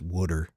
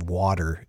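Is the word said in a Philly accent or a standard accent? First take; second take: Philly; standard. First: It is said in a Philly accent. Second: It is said in a standard accent.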